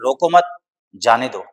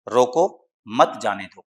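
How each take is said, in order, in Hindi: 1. दूसरे शब्द के बाद पॉज़ है। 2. पहले शब्द के बाद पॉज़ है। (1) "और अगर पॉज़ आप मत के बाद ले रहे हैं" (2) "अगर आप रोको के बाद पॉज़ ले रहे हैं"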